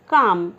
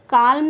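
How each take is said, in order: First: The L sound is silent. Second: The L sound is pronounced. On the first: The speaker calls it right. "जो एल होता है वो silent है, इसे कहेंगे काम" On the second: The speaker calls it wrong. "यहाँ पे काल्म नहीं बोलेंगे फ्रेंड्स"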